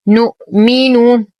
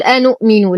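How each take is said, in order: First: نؤمن chanted slowly as "nu'minu"; نؤمن with a clean glottal stop after "nu"; no leading hamza. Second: أنؤمن said "anu'minu"; أنؤمن opened with a glottal stop and a; wrong added hamza. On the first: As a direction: start نؤمن straight on the n. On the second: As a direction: put an extra "a" before the n in أنؤمن. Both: Shown as a demonstration. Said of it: "لا نقول أنؤمن".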